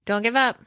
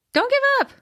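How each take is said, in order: First: Said in the usual way. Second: Squeaky high cheerleader voice; high-pitched. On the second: Pretend. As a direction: pop it up high and bright. Encouraging friend, repeats higher.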